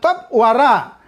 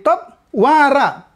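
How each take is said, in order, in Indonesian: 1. Penekanannya jatuh pada suku kata terakhir. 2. Penekanannya jatuh pada suku kata pertama. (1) "bukan bukan top wara" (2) "tapi top wara. Penekanannya pindah ke sini"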